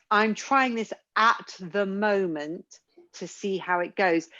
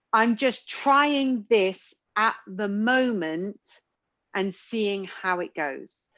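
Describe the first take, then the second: First: Said in the usual way. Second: Slow, measured phrase. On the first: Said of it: "when you talk about". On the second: Shown as a demonstration. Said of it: "did try to say sometimes was".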